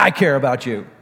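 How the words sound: The voice sounds careless and dismissive. The speaker does not really mean it. The speaker calls it wrong. "kind people don't just go into the world saying, yeah"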